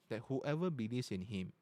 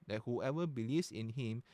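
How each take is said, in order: Both takes have the same delivery.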